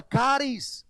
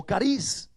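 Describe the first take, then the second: First: "caris" stressed on the opening CA; first-syllable stress. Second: "cariz" stressed on the closing RIZ; final-syllable stress. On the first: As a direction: say "caris" as CA-ris. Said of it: "o cariz". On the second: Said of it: "es la palabra caris". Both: Shown as a demonstration.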